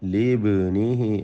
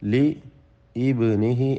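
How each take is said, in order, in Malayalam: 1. ഹംസ ഒഴിവാക്കപ്പെടുന്നു, വാക്കുകൾ ചേർന്നുവരുന്നു. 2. ഹംസ ഒരു പ്രത്യേക അക്ഷരമായി ഉച്ചരിക്കപ്പെടുന്നു. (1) "ചേർത്ത് ഓതുമ്പോൾ ലീബ്നിഹി എന്ന് മാത്രമേ ഉച്ചരിക്കുകയുള്ളൂ" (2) "എന്നായിരുന്നു അതിൻ്റെ അസ്ല്"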